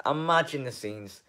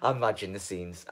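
First: Imagine the scenes lifted higher with excitement; excited repeat. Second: Said in the usual way. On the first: Real, not acted. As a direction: say it again, now thrilled by the idea. Repeats phrase, second lifted.

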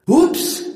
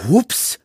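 First: Very high, loud little oops; high-pitched, rising oops; dragon's oops. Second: High, loud, annoyed mimicking oops; irked, rising mock oops; grumbled echo. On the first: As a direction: squeal a startled oops. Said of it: "sagte Saphira". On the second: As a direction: throw the oops back crossly. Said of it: "murrte Eragon". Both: A narrator's reading.

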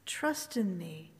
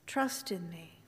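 Both takes have the same delivery.

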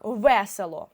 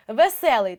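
First: ВЕСЕЛО with stress on the first syllable; наголос на першому Е. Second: ВЕСЕЛИЙ loud, stressed on the second syllable; наголос на другому Е. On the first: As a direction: lean on ВЕ in ВЕСЕЛО. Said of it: "цей звук став наголошеним". (ВЕСЕЛО з наголосом на ВЕ) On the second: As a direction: punch СЕ in ВЕСЕЛИЙ. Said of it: "те саме". (ВЕСЕЛИЙ з наголосом на СЕ) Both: Shown as a demonstration.

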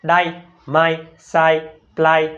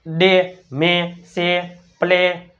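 First: ડાય, માય, સાય, પ્લાય with an "eye" vowel; wrong "ai" reading. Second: ડે, મે, સે, પ્લે with a long "ay" vowel; correct "ay" sound. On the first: Teacher showing pupils how nobody should read it, wrong "ai" vowel. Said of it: "આવું કોઈ બોલે?". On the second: Teacher giving pupils the rule for A plus Y, long "ay" vowel. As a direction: read each word out separately, ડે, મે, સે, પ્લે, ending in "ay". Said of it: "એનો ઉચ્ચાર શું થાય". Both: Shown as a demonstration.

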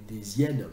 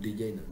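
First: "des hyènes" as "dé-zyène", z linking the words; correct liaison. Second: "des hyènes" as "dé yène", no z, softer; everyday unlinked pronunciation. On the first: Translator being a smart aleck, z liaison. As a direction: sound the z between "des" and "hyènes". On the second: Translator not playing smart aleck, no liaison. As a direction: drop the liaison in a lower aside. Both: Shown as a demonstration. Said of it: "si j'essaie de pas faire mon malin".

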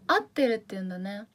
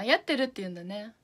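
First: 合ってる said "atteru", with no y at the start; dialect word form. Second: やってる said "yatteru", with a y at the start; standard word form. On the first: Streamer repeats the Fukuoka word to viewers, 合ってる as "atteru". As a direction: start 合ってる on a plain "a" sound. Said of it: "イベントやってるって言うんだ". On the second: Streamer tries the standard word for viewers, やってる as "yatteru". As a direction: open やってる on a clear "ya" sound. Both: Shown as a demonstration.

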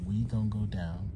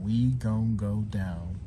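First: Said in the usual way. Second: Drawn out slowly; slow careful. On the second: Shown as a demonstration. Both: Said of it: "I'm gonna try".

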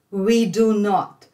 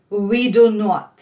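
No difference in how they are said.

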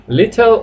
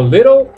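First: "Little" with a sounded t, "li-tel"; clear t. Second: "little" with a flapped t, "liddle"; tapped t. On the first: Teacher offers two versions, "Little" with a clear t. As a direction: articulate the t in "Little". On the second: Teacher offers the second version, "little" with tapped t. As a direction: soften the t in "little" to a quick tap. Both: Shown as a demonstration.

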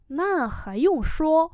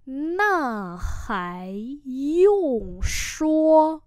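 First: Said in the usual way. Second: Very slow, each tone held long; syllable-by-syllable repeat; slow model pronunciation. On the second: Shown as a demonstration. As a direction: stretch every syllable for learners. Teacher repeats phrase slowly.

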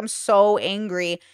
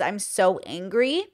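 First: Slow, sulky mope; mild mopey whine; moping. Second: Said in the usual way. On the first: Retold or imitated. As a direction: drag it out like a sulking child. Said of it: "moping kind of". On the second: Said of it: "I kept saying the words".

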